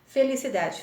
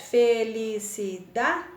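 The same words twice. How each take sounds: First: Said in the usual way. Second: FE - LI - CI - DA - DE, slow, even beats; teacher sounding out FE-LI-CI-DA-DE; split into syllables. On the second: Shown as a demonstration. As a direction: say felicidade in five slow pieces, FE, LI, CI, DA, DE. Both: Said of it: "Cinco sílabas".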